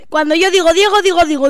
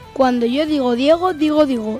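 First: The phrase is spoken at a fast pace. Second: The phrase is spoken at a medium pace. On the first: "Velocidad rápida. La más rápida" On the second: "Velocidad normal"

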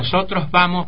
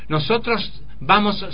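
First: The s sounds are lightly aspirated. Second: Every s is pronounced fully. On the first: It sounds like an educated Argentine speaker. The speaker calls it right. "aspira levemente la S" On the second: It sounds like a speaker from Santiago del Estero. The speaker calls it wrong. "Tampoco se puede enseñar que todas las letras se pronuncian"

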